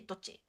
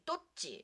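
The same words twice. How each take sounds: First: It is said quickly with the consonant shortened. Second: It is said slowly with the double consonant held. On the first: "when you are just like speaking, speaking... it's like you shorten it" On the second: "when you're saying it slowly"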